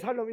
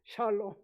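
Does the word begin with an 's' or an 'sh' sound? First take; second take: s; sh. First: The word begins with a plain 's' sound. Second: The word begins with an 'sh' sound. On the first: It sounds like a wish to kill. The speaker calls it wrong. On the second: It is a greeting of peace. The speaker calls it right.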